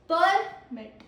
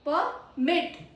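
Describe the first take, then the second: First: The stress is on the first syllable. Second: The stress is on the second syllable. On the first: An official document granting authorization. "First syllable stress, noun" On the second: To allow something to happen. "it has stress on second syllable"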